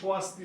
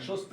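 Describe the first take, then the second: First: The first consonant is followed by a w sound. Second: The first consonant has no w sound after it. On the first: This is the way Sanskrit says it. "বলে" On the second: This is the everyday Bengali way of saying it. "না বলে"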